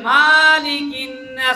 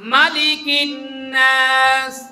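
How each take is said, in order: First: The vowel after the m is drawn out. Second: The vowel after the m is short. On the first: The speaker calls it wrong. "অশুদ্ধ হবে" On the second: The speaker calls it right. "মিমে কোনো টান নাই"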